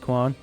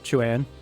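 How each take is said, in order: First: The name begins with a 'kw' sound. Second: The name begins with a 'ch' sound. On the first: This is the older habitual pronunciation. The speaker calls it wrong. "I'm so used to the Dynasty eight pronunciation of it" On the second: This is the corrected current pronunciation. The speaker calls it right. "Or Chuan"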